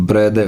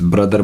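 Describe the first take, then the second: First: ब्रदर as "bra-de", no final R; corrected silent R. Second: ब्रदर ending in a clear R; common form, R sounded. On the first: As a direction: drop the R at the end of ब्रदर. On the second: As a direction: say ब्रदर as "bra-dar". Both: Shown as a demonstration. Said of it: "लेकिन ब्रदर होता है".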